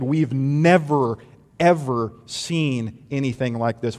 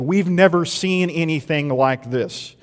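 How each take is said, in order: First: "never" slow and drawn out, then "ever" leaned on; stress on never. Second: Said in the usual way. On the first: Retold or imitated. Synagogue crowd marvels at Jesus, slow stress on "never, ever". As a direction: stretch "We've never, ever" in slow awe. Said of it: "they said". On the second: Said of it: "They said".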